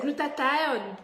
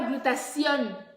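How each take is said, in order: First: The word ends with a 'thione' sound. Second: The word ends with a 'tion' sound. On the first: The speaker calls it right. "En anglais, c'est glutathione" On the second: The speaker calls it wrong. "Ce n'est pas glutation"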